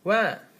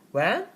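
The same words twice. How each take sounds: First: The pitch falls at the end. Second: The pitch rises at the end. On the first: The listener wants more specific details. "you can use uh, folding intonation" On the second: The listener wants the information repeated. "you can use rising intonation"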